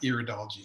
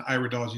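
First: The first syllable sounds like "ear". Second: The first syllable sounds like "eye". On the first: It would be the study of the ear. The speaker calls it wrong. "not the ear" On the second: It is the study of the eye. The speaker calls it right. "It's the study of the eye"

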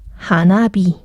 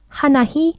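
First: The second part begins with a b sound. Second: The second part begins with an h sound. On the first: The speaker calls it right. "발음이 좀 세니까 하나비" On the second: The speaker calls it wrong. "발음이 좀 세니까"

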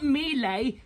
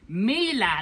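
First: The name does not rhyme with Sheila. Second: The name rhymes with Sheila. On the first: The speaker calls it wrong. "not Miele" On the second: The speaker calls it right. "Miele, like Sheila"

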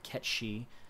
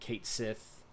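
First: The name sounds like 'Ketshi', run together as one word. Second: The name sounds like 'Kate Sith', two separate words. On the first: The speaker calls it right. "Ketshi, apparently, is the proper pronunciation" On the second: The speaker calls it wrong. "we all grew up calling him Kate Sith"

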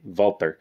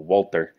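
First: It has a hard T and German sounds. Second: It has a hard T and English sounds. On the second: "I use the hard T because that's how they pronounce it"

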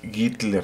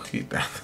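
First: The name starts with a hard g sound. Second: The name starts with a breathy h sound. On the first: The speaker calls it right. "dijimos que era Gittler" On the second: The speaker calls it wrong. "no Gittler"

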